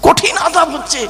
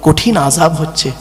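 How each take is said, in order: First: High, emphatic cry of warning without extra volume; high-pitched exclamation. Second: Said in the usual way. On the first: Retold or imitated. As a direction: jump up high on the repeat. Preacher repeats grave warning, intensified. (উঁচু সুরে জোর দিয়ে সতর্কবাণী)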